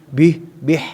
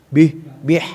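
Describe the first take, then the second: No difference in how they are said.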